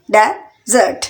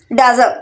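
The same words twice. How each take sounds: First: desert in two separate beats; split into syllables. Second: Said in the usual way. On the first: Shown as a demonstration. Teacher counting out two syllables for learners, syllable by syllable. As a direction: pause between डे and jot. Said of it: "टू syllable यानी desert". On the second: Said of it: "desert में भी टू syllable".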